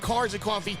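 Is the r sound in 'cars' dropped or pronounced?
pronounced. The r in 'cars' is clearly pronounced. "we're saying it properly"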